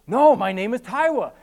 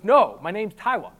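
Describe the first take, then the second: First: Louder "Taiwa", r said as w; insisting "Taiwa" with a w for r; says w for r. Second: "Taiwa" with a w for the r; firm "Taiwa", r said as w; says w for r. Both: Retold or imitated. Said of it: "I can't pronounce my R's".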